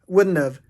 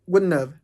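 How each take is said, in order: The two takes are said the same way.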